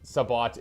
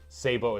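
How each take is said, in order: First: The word ends with an audible t sound. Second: The word ends in a vowel, t silent. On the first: "Sabbat is the proper pronunciation" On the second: "Sabo is French. It's because you eat the T's in French"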